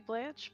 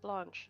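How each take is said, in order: First: The name is said with an American pronunciation. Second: The name is said with a British pronunciation. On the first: "for Americans it would be Blanche" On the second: "when you're British, it generally gets pronounced Blanche"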